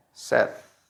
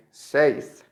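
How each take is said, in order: First: "saith" said as sed; correct short vowel. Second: "saith" said as sayd, long ay; incorrect long vowel. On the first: Teacher gives the correct past, "saith" as sed. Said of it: "The correct is". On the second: Teacher shows the past mistake, "saith" as sayd. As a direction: say "saith" like sayd, rhyming with made. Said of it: "it's not correct to say". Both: Shown as a demonstration.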